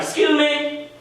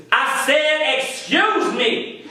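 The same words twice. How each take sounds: First: Raised-pitch, imitated "excuse me"; higher voice, ordinary volume, asking to pass; imitated passerby. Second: High-pitched, drawn-out "excuse me"; slow, emphatic mock demand; imitated indignant repeat. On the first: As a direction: play a woman asking to get by. Passerby's first request to get past. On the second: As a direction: stretch it out, insisting on being heard. Passerby repeats herself, insisting.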